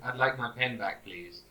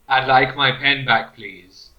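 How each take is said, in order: First: It is said at a normal, quiet volume. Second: It is said loudly, with a raised voice.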